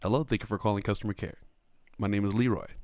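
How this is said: The voice is low and deep. The speaker calls it wrong. "my voice is never this deep"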